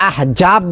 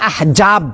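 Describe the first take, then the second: Both takes have the same delivery.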